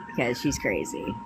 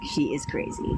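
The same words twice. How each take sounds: First: Said in the usual way. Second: Whispered aside, She is crazy. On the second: Real, not acted. Confiding to viewers about the ex, whispered.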